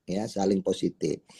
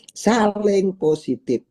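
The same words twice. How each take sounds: First: Ya, saling positif repeated much softer and lower; soft echo. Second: Saling positif with Saling pitched high and slow; emphatic key phrase. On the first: Teacher repeating the principle to the audience, quiet echo. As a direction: drop it to a quiet confirming echo. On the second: Teacher stressing the principle to the audience, emphatic slow high stress. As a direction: lean hard on Saling, drawn out. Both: Shown as a demonstration.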